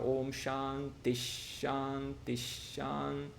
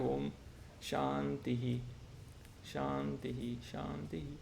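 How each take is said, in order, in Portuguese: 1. As palavras são ditas juntas, com um som de sh duplicado. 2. As palavras são ditas devagar e separadas. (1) "se você pronuncia sem intervalo, você tem que fazer essa mudança" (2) "se você faz muito devagar, aí você não precisa fazer"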